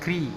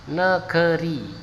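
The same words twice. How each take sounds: First: The vowel after the first n is dropped. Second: The vowel after the first n is kept. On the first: The speaker calls it wrong. "N G E R I langsung ya. Tapi salah itu" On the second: The speaker calls it right. "Yang benar adalah N E G E R I"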